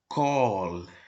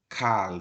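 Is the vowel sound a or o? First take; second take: o; a. First: The word is said with an o vowel. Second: The word is said with an a vowel. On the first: The speaker calls it right. "lida como kol" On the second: The speaker calls it wrong. "não é a palavra que é lida como kal"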